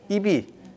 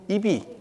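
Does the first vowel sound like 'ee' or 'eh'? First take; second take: ee; ee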